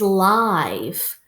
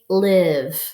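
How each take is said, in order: First: The vowel is a long i, as in five. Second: The vowel is a short i, as in give. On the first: Happening in real time. "we might do a lesson live together" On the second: To have one's home somewhere. "the first way would be live. Where do you live?"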